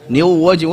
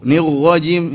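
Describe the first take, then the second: First: The r sounds like a w. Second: The r sounds heavy, like ro. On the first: "Oh, ternyata waw" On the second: "Jadi kayak ro"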